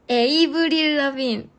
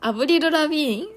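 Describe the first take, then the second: First: The name begins with an 'ay' vowel. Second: The name begins with an 'ah' vowel. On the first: This is the Korean way of saying the name. "한국어는 에이브릴 에이브릴이잖아" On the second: This is the Japanese way of saying the name. "아브릴 라빈 일본어 발음밖에 모르겠어"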